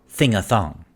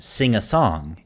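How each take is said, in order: First: The s sounds come out as 'th' sounds. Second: The s sounds are clear hissing sounds. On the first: "This is a basic lisp" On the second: "instead of saying"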